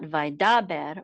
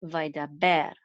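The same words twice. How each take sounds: First: Vaidaber stressed on the middle DA; vai-DA-ber, weight on the middle syllable; misplaced stress. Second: Vaidaber with BER stressed at the end; vai-da-BER, landing on the final syllable; stress on last syllable. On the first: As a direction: punch "da" in vaidaber, letting "ber" drop. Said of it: "not vaidaber or vaidaber". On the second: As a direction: save the weight of vaidaber for "ber". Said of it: "accent mark is on the last syllable". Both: Shown as a demonstration.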